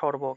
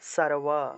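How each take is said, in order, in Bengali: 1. এটি বাংলার সাধারণ নিয়মে উচ্চারিত। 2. এটি সংস্কৃত নিয়মে উচ্চারিত। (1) "বাংলায় বললে সর্ব" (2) "সংস্কৃত উচ্চারণ করলে সারওয়া"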